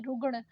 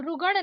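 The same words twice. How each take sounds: First: रुगण squeezed to रुग्ण, no middle vowel; correct cluster. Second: रुगण with vowel between ग and ण; wrong extra vowel. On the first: Teacher correcting learners, joined-up रुगण. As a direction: join ग straight to ण in रुगण. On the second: Teacher showing learners the mistake, split रुगण. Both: Shown as a demonstration. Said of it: "नहीं".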